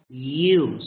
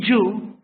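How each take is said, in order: First: The y sound is soft and light. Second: The y sound is hard and strong. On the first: The speaker calls it right. "you say you. Soft" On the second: The speaker calls it wrong. "You don't say you"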